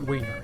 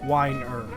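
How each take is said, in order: First: The first syllable rhymes with 'wean'. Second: The first syllable rhymes with 'wine'. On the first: The speaker calls it wrong. "not wiener" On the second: The speaker calls it right. "It's pronounced like a glass of wine"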